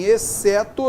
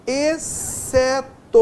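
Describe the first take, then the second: First: Said in the usual way. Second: "exceto" very slow and high, split e, ce, to with one s; XC sounded as S. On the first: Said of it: "eu tenho o som S". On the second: Shown as a demonstration. Teacher showing a digraph, "exceto" slowly split with a single s sound. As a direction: stretch each syllable of "exceto". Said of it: "em exceto eu tenho o som S".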